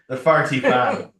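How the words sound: It is said in an Irish accent, sounding like 'farty'.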